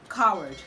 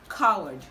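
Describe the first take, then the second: First: The W sound is left out. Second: The W sound is left out.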